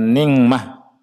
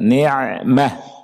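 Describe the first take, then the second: First: The middle consonant is a nasal 'ng' sound. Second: The middle consonant comes from the mid throat. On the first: The speaker calls it wrong. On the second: The speaker calls it right. "Tengah tenggorokan"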